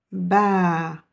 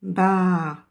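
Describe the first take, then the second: First: Ba with the A held two beats; ba, vowel held long. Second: Ba with a short one-beat A; Ba, quick short vowel. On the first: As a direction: stretch the A of ba over two beats. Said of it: "On va dire deux temps". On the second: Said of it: "Et là, c'est un temps". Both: Shown as a demonstration.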